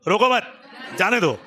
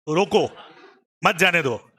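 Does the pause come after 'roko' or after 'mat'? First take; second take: after mat; after roko. First: There is a pause right after 'mat'. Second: There is a pause right after 'roko'.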